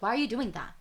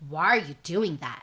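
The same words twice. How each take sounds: First: It sounds like a genuine, curious question. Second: It sounds harsh and offensive.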